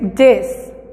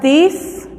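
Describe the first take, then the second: First: It begins with a plain d sound. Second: It begins with a voiced th sound. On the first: The speaker calls it right. "es this" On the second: The speaker calls it wrong. "mientras no digamos this"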